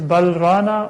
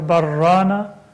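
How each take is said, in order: First: The L sound is kept before the R. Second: The L sound merges into a doubled R.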